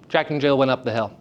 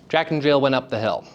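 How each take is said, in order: Both takes have the same delivery.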